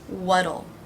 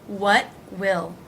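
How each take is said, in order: First: It is contracted with a flapped T. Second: It is said as two full words.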